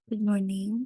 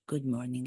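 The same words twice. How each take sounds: First: The voice is pitched higher and sweeter. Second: The voice is pitched low and relaxed. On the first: The speaker wants to sound nice and kind. The speaker calls it wrong. "a voice that sounds like it's not mine" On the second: The speaker drops the facade and sounds natural. The speaker calls it right. "My voice would be this one"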